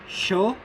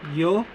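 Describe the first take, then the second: First: The consonant sounds like English sh. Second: The consonant sounds like English y. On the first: "The S H-like sound" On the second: "The Y-like or the letter I-like sound"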